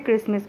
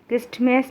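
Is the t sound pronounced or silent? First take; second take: silent; pronounced. First: The t sound is silent. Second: The t sound is pronounced. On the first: The speaker calls it right. "क्रिसमस पढ़ते हैं" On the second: The speaker calls it wrong. "क्रिस्टमस नहीं पढ़ते"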